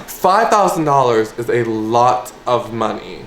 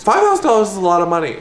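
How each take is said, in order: First: Said in the usual way. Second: Higher, rushed and emphatic; excited. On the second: Real, not acted. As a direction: blurt it out, tempted. Excited repeat to viewers.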